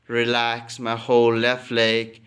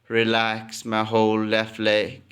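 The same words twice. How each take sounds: The two takes are said the same way.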